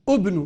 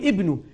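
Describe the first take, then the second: First: The word begins with a 'u' vowel. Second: The word begins with an 'i' vowel. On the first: The speaker calls it wrong. "ما بقول ابنوا" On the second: The speaker calls it right. "بدي اقول ابنوا"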